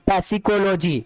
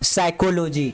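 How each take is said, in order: First: A p sound is heard at the start. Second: The word starts with an s sound, no p. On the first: The speaker calls it wrong. "पी नहीं पढ़िएगा आप" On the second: The speaker calls it right. "यहाँ पे पी word silent होगा"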